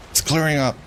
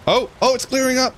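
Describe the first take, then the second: First: Said in the usual way. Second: High, bright burst of relief; suddenly thrilled, voice jumping up; excited. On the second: Real, not acted. Fog lifting suddenly.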